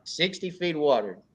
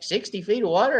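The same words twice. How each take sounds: First: "Sixty feet of water." repeated steady with a falling, matter-of-fact end; calmly insist, no doubt; flat confirmation. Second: "Sixty feet of water?" raised higher with a rising questioning end; doubtful question. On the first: Club leader confirming his advice to the newcomer, matter-of-fact. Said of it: "I'm like". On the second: Newbie angler questioning the sixty-foot advice, mock disbelief. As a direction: echo it back as if it's crazy. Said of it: "He looked at me like I was stupid". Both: Retold or imitated.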